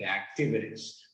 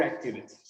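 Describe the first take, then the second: First: Activities with the last T tapped like a soft R. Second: Activities with a clear T before the ending. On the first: Teacher offers the plural activities two ways, tapped T. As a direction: say activities with an American flapped T. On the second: Teacher offers the plural activities two ways, clear T. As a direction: say activities with a full T sound. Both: Shown as a demonstration. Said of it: "se intenta pronunciar un poco como la R".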